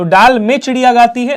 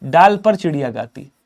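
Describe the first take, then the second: First: "डाल में" raised high and loud; questioned wrong version. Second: "डाल पर" settled, in a lower voice; corrected version. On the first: Teacher shows class the wrong case marker, "डाल में" stressed high. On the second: Teacher gives class the right case marker, "डाल पर" said lower and settled. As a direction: state "डाल पर" as the correction, pitch coming down. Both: Shown as a demonstration. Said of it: "नहीं".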